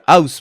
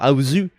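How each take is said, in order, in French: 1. Le mot se termine par une consonne, sans voyelle finale. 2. Le mot se termine par une voyelle finale ajoutée.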